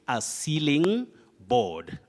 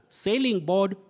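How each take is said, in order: First: The first word sounds like 'sealing'. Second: The first word sounds like 'sailing'. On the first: The speaker calls it right. "You say a sealing board" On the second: The speaker calls it wrong. "Some people find themselves saying sailing board"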